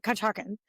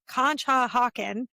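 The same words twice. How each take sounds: First: Conshohocken squeezed to "Cunch-HOCK-en"; shortened local Conshohocken. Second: Conshohocken slowly as "Con-sho-HOCK-en"; full Conshohocken. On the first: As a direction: swallow the second vowel of Conshohocken. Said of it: "you say it Conshohocken". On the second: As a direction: give all four syllables of Conshohocken. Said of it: "well, first of all". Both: Shown as a demonstration.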